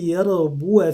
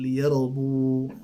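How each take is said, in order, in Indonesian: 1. Kata ini berakhir dengan vokal pendek. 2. Kata ini berakhir pada konsonan tanpa vokal. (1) "Ketika dia wasal liyarbuwa fi kita pendekkan" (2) "ketika kita wakafkan ... kita sukunkan liyarbu"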